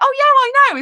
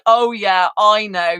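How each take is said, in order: First: It is said in a happy, jolly tone. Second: It is said in a nasty, unpleasant tone.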